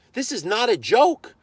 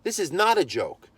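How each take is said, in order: First: "joke" stretched high and rising, slow; slow and raised, punch "joke" upward; emphatic warning. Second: "not" hit hard with a falling tune; stress on NOT. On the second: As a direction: drop the voice and land on "not". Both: Retold or imitated. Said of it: "drilling into the guy".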